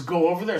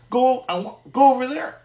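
First: Said in the usual way. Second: Higher, louder insistent command; God insisting loudly. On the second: Retold or imitated. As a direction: push him to go, like a voice from above. God's voice insisting he go.

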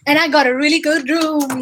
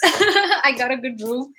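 First: Said in the usual way. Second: Laughing through the words. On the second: Real, not acted. Streamer boasting about the hotel upgrade, laughing. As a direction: laugh it out, pleased.

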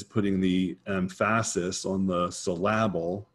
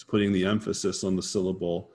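First: "emphasis" and "syllable" stressed on the second syllable, em-PHA-sis, syl-LA-ble; misplaced stress. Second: Said in the usual way. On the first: Shown as a demonstration. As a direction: say "syllable" as suh-LAB-ul, "emphasis" as em-FASS-is.

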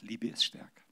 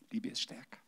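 First: Said in the usual way. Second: Much softer, lingering repeat; the girl gently repeating her words. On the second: Retold or imitated. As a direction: say "Liebe ist stärker" again gently and softly.

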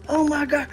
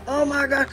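Both takes have the same delivery.

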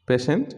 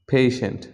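First: পেশেন্ট as "PEH-shent"; short first vowel in পেশেন্ট; common mispronunciation. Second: পেশেন্ট as "PAY-shent"; correct pronunciation. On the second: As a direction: glide the first vowel of পেশেন্ট from e to i. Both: Shown as a demonstration. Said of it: "পেশেন্টটা কী হবে".

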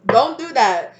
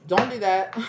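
First: Much louder, pitch raised; louder warning. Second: Said in the usual way. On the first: Real, not acted. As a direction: punch it out as a firm warning. Repeats warning, second time louder.

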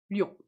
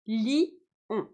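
First: Lion said in a single syllable, ljon; one syllable. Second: Li, on: the two vowels of lion pulled apart into two syllables; split into two syllables. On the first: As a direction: say "lion" fused into one beat. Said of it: "en une seule syllabe". (lion dit en une seule syllabe) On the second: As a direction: say "li-on" in two distinct beats. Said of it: "vous comptez les deux voyelles en deux syllabes". (lion dit en deux syllabes, li-on) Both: Shown as a demonstration.

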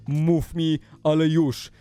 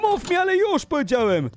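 First: Lower, controlled insistence; restrained firm demand. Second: High-pitched insistent yell; angry demand. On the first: YouTuber repeating the demand to stalker, controlled firm insistence. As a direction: press it firmly without yelling. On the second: YouTuber demanding the stalker speak, high angry yell. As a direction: demand it in mock rage. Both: Acted.

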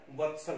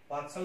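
First: वत्सल with short "va"; short first vowel. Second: वात्सल with long "vaa"; wrong long vowel. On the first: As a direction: say वत्सल as vat-sal. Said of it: "वत्सल होता है". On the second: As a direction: open वात्सल on a long "baat" sound. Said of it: "वात्सल नहीं होता है". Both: Shown as a demonstration.

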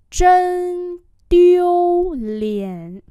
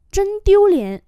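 First: Chân tiêu liễn very slow, high and loud; slow demonstration. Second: Said in the usual way. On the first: Shown as a demonstration. Teacher drills "Chân tiêu liễn" for learners, very slowly. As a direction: hold each syllable of Chân tiêu liễn.

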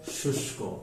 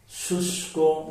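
First: শুষ্ক whispered softly; whispered repeat. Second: শুষ্ক with a raised, clear শ sound; pronunciation demo. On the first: Teacher whispering শুষ্ক after saying it. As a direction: breathe শুষ্ক out without voice. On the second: Teacher showing the sound of শুষ্ক. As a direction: stress the শ in শুষ্ক. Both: Shown as a demonstration. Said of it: "মূর্ধন্য স, তালব্য স হয়েছে".

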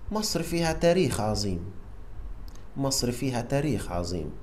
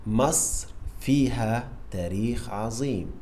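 First: Very fast. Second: Said in the usual way. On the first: Shown as a demonstration. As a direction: rattle off مصر فيها تاريخ عظيم quickly.

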